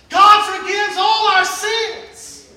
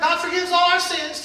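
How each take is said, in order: First: It is said with excited conviction. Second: It is said in a bored, dismissive way.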